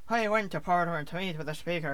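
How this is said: It is spoken in a Northern Irish accent. "I have the Northern Irish accent"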